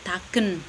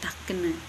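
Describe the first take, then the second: First: The word ends without an added vowel. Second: The word ends with an added e vowel. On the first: This is how another village says it. "satunya tidak ada E belakang" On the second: This is how one village says it. "taken itu kayak ada E di belakang begitu"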